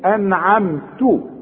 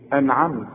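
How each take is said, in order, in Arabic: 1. تنتهي الكلمة بحركة قصيرة بعد 't'. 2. تنتهي الكلمة بصوت 't' ساكن. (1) "فدي أنعمت" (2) "لكن عند الوقت تقول ايه؟ انعمت، لان احنا بنسكن الحرف"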